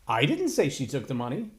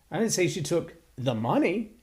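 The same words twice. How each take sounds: First: The emphasis is on the word 'didn't'. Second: The emphasis is on the word 'money'.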